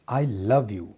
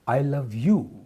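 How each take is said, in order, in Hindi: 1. Stress 'love' शब्द पर पड़ता है। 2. स्ट्रेस 'you' शब्द पर पड़ता है। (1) "आई don't hate यू" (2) "not him और हर"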